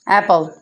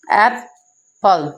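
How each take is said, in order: First: Said in the usual way. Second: एप्पल broken into two beats, "ap", long pause, "pal"; split into syllables. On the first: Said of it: "टू syllables के साथ पढ़ा जाता है". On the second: Shown as a demonstration. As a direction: say एप्पल slowly, one syllable at a time. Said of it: "two parts में divide किया जाता है". (एप्पल को दो हिस्सों में तोड़कर, रुक-रुककर)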